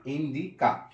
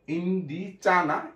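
First: ইন্ডিকা with a clear ক sound; correct version. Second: ইন্ডিচা with চ instead of ক; wrong version. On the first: Teacher giving students the right sound. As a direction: say ইন্ডিকা with a hard ক. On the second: Teacher showing students the wrong sound. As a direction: say ইন্ডিচা as the mistake to avoid. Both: Shown as a demonstration.

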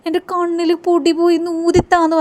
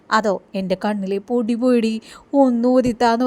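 First: Put-on higher childish plea to blow into her eye; Soundarya's plea. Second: Said in the usual way. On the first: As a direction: whine it like a little girl with dust in her eye. Same line repeated, voiced higher.

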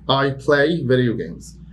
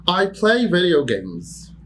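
First: Said in the usual way. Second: High, slow, "play" stressed; high slow model. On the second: Shown as a demonstration. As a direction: dictate with "play" lifted. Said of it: "teacher demo".

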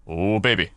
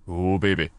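No difference in how they are said.

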